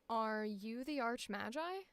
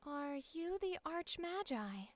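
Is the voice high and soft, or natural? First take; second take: natural; high soft. First: The voice is at its natural pitch. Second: The voice is higher-pitched and soft. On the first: "then we'll do my regular voice" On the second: "we're going to start with a higher pitch soft"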